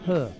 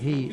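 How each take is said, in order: First: It sounds like the English word 'her'. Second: It sounds like the English word 'he'. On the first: The speaker calls it right. "it's her" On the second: The speaker calls it wrong. "H E is not he"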